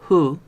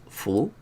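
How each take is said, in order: First: It starts with a soft, breathy h sound. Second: It starts with a clear, strong f sound. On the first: "A veces es hu, muy suave" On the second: "A veces es fu, muy claro"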